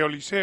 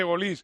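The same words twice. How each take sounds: First: Olise said oh-lee-SAY; accent on the E. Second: Olise said oh-LEES; silent final E. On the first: Repeating both names to please everyone, Olise ending in -SAY. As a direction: put the stress on a final é in Olise. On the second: Repeating both names to please everyone, Olise ending on S. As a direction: let Olise end on a stressed -LEES. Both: Shown as a demonstration. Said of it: "Le llamo las dos".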